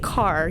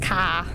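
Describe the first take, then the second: First: The final r sound is pronounced. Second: The final r sound is dropped. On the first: "he doesn't say car" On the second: "he says ka"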